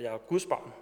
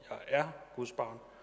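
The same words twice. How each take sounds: First: The stress falls on the word Guds. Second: The stress falls on the word er.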